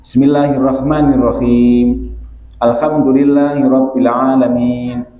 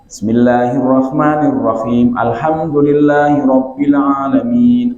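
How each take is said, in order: First: Each verse ends with a stop before the next. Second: The verses run together without a stop between. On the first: It follows how the Prophet recited. "ayat per ayat" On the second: It is an acceptable reading style. "Itu kan nyambung"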